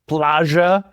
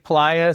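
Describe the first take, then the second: First: The middle sound is a sh-like sound. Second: The middle sound is a plain y sound. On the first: "she goes plaja" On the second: "this girl doesn't say playa"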